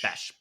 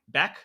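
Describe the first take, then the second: First: The name ends with an sh sound. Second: The name ends with a k sound. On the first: The speaker calls it right. "There we go" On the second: The speaker calls it wrong. "Am I saying that's right?"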